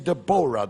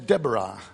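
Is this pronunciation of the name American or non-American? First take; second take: non-American; American. First: The name is said the non-American way. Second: The name is said the American way. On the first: This is how the audience says it. "You say Deborah" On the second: This is how Americans say it. "The Americans say Deborah"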